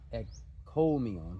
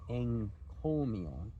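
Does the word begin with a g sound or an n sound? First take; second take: g; n. First: The first consonant is a hard g sound. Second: The first consonant is a nasal n sound. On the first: The speaker calls it wrong. "not encomion" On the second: The speaker calls it right. "but encomion"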